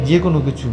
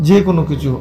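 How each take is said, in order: Both takes have the same delivery.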